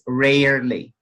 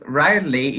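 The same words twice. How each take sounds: First: It is said in an American accent. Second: It is said in a British accent. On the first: "American is rarely" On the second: "rarely is British"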